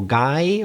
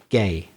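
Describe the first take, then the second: First: The vowel sounds like the one in 'eye'. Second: The vowel sounds like the one in 'day'. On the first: The speaker calls it wrong. "I've heard some Spanish people mispronounce it" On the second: The speaker calls it right.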